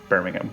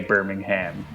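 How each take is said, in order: First: It is said the way English locals say it. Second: It is said the way Alabama locals say it. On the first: "and not Birmingham" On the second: "they probably say Birmingham"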